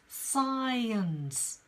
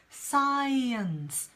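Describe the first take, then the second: No difference in how they are said.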